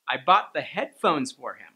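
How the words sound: The stress falls on the word "headphones". The headphones were bought, but nothing else. "headphones is already a content word, but I added that higher intonation"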